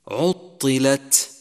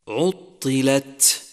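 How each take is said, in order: The two takes are said the same way.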